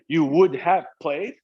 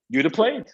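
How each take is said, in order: First: Every word is said fully and separately. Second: Would is shortened and joined to you. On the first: "Instead of saying" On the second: "you say"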